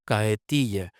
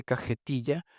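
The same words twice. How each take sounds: First: "cajetilla" said as "cahetilla", lower and falling; aspirated J. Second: Said in the usual way. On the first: Shown as a demonstration. Repeating the Caribbean-like form, aspirated J. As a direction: barely breathe the j in "cajetilla". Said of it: "Aspiración de J". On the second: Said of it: "en lugar de".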